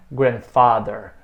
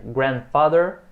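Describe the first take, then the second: First: Grandfather with FATHER punched; wrong stress on FATHER. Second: Grandfather stressed on the first syllable, GRAND. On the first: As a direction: throw the weight onto "fa" in grandfather. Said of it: "Lembra que não é". (grandfather com a tônica errada em "father") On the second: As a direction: lean on "grand" in grandfather, ending on a rise. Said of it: "a sílaba é a primeira". (grandfather com a tônica em "grand") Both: Shown as a demonstration.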